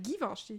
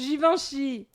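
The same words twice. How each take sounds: First: The first G is a hard G sound. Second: The first G is a soft G sound. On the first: The speaker's earlier mistaken idea of the name. The speaker calls it wrong. "Moi, je pensais que c'était Givenchy" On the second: The actual way the name is pronounced. The speaker calls it right. "un G qui est doux"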